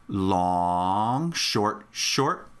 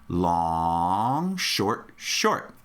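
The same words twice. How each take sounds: Both takes have the same delivery.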